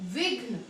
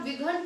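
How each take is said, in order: First: "विघ्न" with घ joined straight onto न; correct half घ. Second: "विघन" as two syllables, vowel after घ; mispronounced full घ. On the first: Teacher correcting the common misreading, "विघ्न" with half घ. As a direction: say "विघ्न" with no vowel between घ and न. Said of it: "घ आधा है, इसलिए इसे हम कहेंगे". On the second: Teacher warning student about misreading, "विघन" with full घ. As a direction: sound घ whole in "विघन", before a separate न. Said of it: "घ पूरा". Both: Shown as a demonstration.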